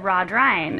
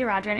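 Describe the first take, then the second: First: "Rod Ryan" as two names, ending like RYE-an; caller's mispronunciation. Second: "Rodrian" with a ree-an ending; own usual pronunciation. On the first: Editor quotes a caller getting her surname different, "Rod Ryan" with RYE-an. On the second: Editor answers the caller with her own name, "Rodrian" as ROD-ree-an. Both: Retold or imitated. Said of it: "you're saying your last name wrong".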